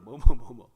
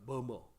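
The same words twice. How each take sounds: First: 머머, 머머 repeated louder with a rolled tongue; 머머 punched out loud in English style; English murmur. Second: 머머 said soft and low as English murmur; 머머 quietly, rolling the tongue like English. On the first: Preacher drilling the congregation on 머머, loud demo. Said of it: "혓바닥을 굴려야 되는데". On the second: Preacher teaching the English word 머머, soft demo. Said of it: "이렇게 발음이 좀 머머". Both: Shown as a demonstration.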